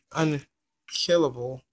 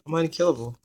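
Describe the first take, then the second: First: Slow emphatic unkillable; slow, drawn-out. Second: Said in the usual way. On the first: Shown as a demonstration. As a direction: stretch out unkillable slowly. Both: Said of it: "As I said".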